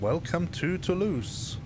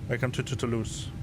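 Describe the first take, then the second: First: The phrase is said at an ordinary pace. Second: The phrase is said fast, sounding stuttered.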